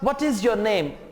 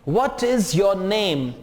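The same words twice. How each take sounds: First: The phrase is said fast with linked words. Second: The phrase is said slowly, word by word.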